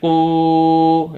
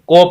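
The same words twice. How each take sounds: First: The vowel is stretched out long. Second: The vowel sounds like an o. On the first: "उस लफ्ज़ को लंबा नहीं करना, क़ाफ पेश को नहीं, गलत होगा" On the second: "मजहूल नहीं पढ़ना, क़ाफ पेश को को पढ़ लें"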